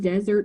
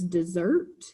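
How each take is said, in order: First: It sounds like the word for a dry region. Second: It sounds like the word for a sweet course. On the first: A hot, dry region. "We have a hot, dry region" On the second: To leave. "If you pronounce the word desert as dessert"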